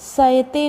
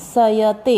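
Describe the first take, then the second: First: The 'ya' sound is clipped short. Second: The 'ya' sound is pronounced fully. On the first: The speaker calls it wrong. "नहीं" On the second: The speaker calls it right. "य का उच्चारण पूर्ण करना है"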